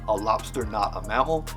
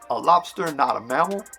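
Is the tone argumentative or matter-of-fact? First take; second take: matter-of-fact; argumentative. First: It is said in a flat, neutral tone. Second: It is said in a pushy, arguing tone. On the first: The speaker is simply stating a general fact. "just making a blanket statement" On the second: The speaker is contradicting someone in an argument. "if I was arguing with a friend"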